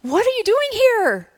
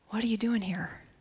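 First: It sounds joyful and excited. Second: It sounds gentle and compassionate.

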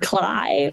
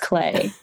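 First: The vowel sounds like 'eye'. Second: The vowel sounds like 'ay'. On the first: The speaker calls it wrong. "I had been saying it wrong in my mind" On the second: The speaker calls it right. "Googled it this morning to make sure, and it's Clay"

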